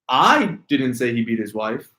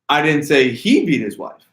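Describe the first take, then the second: First: The word "I" carries the stress. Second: The word "he" carries the stress. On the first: "if you inflect the word I" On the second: "if I emphasize on he"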